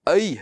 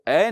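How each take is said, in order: First: The vowel glides from a to i. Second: The vowel is a plain steady e sound. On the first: The speaker calls it right. "आई है" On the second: The speaker calls it wrong. "वो ए नहीं है"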